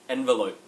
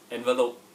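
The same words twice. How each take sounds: First: It is said in an Australian accent. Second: It is said in a Singaporean accent. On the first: "in the Australian accent" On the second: "then the Singaporean accent"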